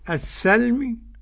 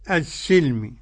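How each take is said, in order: First: The s is followed by an a vowel. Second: The s is followed by an i vowel. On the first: "السين مشددة مفتوحة" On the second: "ومكسورة"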